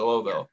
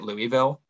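First: The word is slurred with syllables run together. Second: Every syllable of the word is said clearly. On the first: The speaker calls it right. "Just slurred a little bit" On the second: The speaker calls it wrong. "you don't say it Louisville?"

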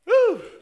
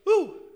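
First: The ooh sounds very excited. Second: The ooh sounds only mildly excited.

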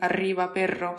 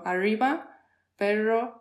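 First: The R is a strong trilled R. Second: The R sounds like an English R.

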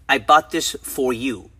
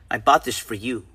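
First: The word 'for' keeps its full vowel. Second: The word 'for' is reduced to 'fur'. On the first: The speaker calls it wrong. "So we say" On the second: The speaker calls it right. "But if you are a human being, you say, ... The for turns into fur"

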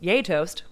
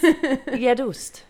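First: The word sounds like 'yay toast'. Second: The word sounds like 'yedust'. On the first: "Americans are supposedly saying yay toast" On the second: "or it's yedust"

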